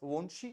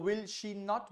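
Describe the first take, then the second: First: It is said quickly as a contracted form. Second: It is said as three full, separate words.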